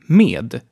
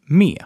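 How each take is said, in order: First: The final D sound is pronounced. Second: The final D sound is dropped.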